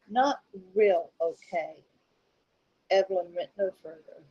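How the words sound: There is a clear pause after okay.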